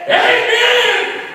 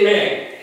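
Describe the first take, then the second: First: It is shouted very loudly. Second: It is said at a normal volume.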